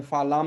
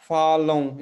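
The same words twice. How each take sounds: First: फालाम with a fully closed m; फालाम ending in a plain, non-nasal am; wrong pronunciation. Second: फालों loud and drawn out, final vowel through the nose; nasal, unclosed ending on फालों. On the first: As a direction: say फालाम with lips shut at the end. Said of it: "इसको हमें फालाम नहीं पढ़ना है". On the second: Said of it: "नाक में ही रह जाएंगे". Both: Shown as a demonstration.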